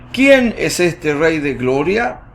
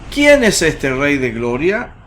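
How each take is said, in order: The two takes are said the same way.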